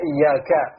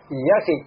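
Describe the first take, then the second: First: The final vowel after k is a. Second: The final vowel after k is i. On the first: The speaker calls it right. "kaf di sini fathah" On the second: The speaker calls it wrong. "tapi dia kasrohkan iyyaki"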